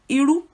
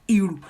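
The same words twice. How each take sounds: First: The pitch of the word goes high. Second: The pitch of the word drops down. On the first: "your voice goes high. Iru, it shoots high" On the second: "If you say Iru, it drops"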